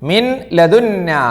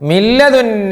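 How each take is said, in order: First: The n is pronounced separately before the l. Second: The n merges into a doubled l sound.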